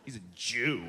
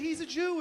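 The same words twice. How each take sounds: First: It is said with a sneering, contemptuous tone. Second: It is said in a plain, neutral tone.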